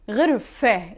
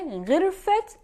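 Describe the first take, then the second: First: The word ends with a soft h sound. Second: The word ends with a clear t sound. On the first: The word stands alone. "when the first noun has ta marbuta, the feminine sign, we pronounce it ha" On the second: The word is joined to a following noun. "In this case, we will pronounce it ta"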